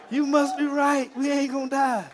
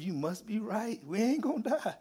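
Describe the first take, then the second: First: Loud, high-pitched quoted cry; excited exclamation. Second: High, softer quote breaking into laughter; amused retold realisation. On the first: Retold or imitated. Troop to sergeant after surviving mortar, loud excited cry. Repeats troop's realisation emphatically. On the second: Troop to sergeant after surviving mortar, laughingly quoted. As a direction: imitate the troop, then crack up.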